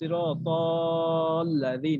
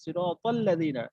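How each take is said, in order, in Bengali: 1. ডাবল l-এর আগের স্বরটি টেনে দীর্ঘ করা হয়। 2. ডাবল l-এর আগের স্বরটি হ্রস্বই থাকে। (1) "এরকম এরকম বলি নাই" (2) "তাল্লাযিনা এখানে কোনো মাদ হচ্ছে না"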